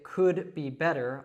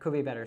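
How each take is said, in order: First: Each word is said separately and stiffly. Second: The D drops and links into the B. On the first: The speaker calls it wrong. "very stiff like a robot" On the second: The speaker calls it right. "we kind of drop that D in could and link it to the B"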